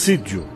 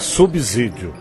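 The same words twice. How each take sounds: First: The middle consonant is a voiceless S sound. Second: The middle consonant is a voiced Z sound. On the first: The speaker calls it right. "subsídio é com som de S" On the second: The speaker calls it wrong. "não é subsídio"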